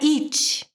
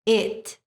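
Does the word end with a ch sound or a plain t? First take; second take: ch sound; plain t. First: The word ends with a ch-like sound. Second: The word ends with a plain t sound. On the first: The speaker calls it wrong. "nós não podemos fazer t, então não é it" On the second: The speaker calls it right. "É it"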